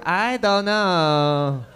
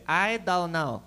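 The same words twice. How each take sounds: First: Very slow, drawn-out mock Chinese accent. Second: Lightly put-on Chinese accent, flat and evasive; mock Chinese accent. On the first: Driver stonewalling the cop, slow mock Chinese accent. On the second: Friends stonewalling the cops, light mock Chinese accent. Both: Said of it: "then they turned Chinese".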